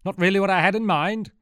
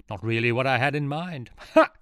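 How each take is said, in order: First: Much higher, louder retelling of the pun; hammed-up, pushing the joke on the soldiers; villain repeats his joke to the soldiers; repeating the joke. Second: Louder, laughing at own joke; a hint of self-pleased villain; villain enjoying his pun; smug joke. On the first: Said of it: "Get that?". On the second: Villain jokes. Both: A narrator's reading.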